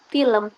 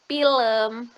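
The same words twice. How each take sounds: First: It is pronounced in the educated standard way. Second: It is pronounced with a regional dialect pronunciation. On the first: The speaker is well educated. "Ragam terpelajar itu dipengaruhi tingkat pendidikan" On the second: The speaker is influenced by a local dialect. "dialek itu non-terpelajar, atau terpengaruh logat daerah"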